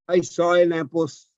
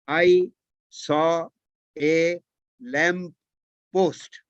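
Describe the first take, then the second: First: The words run together in one connected stream. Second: Each word is said separately, with small breaks. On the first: "But when you speak, you say"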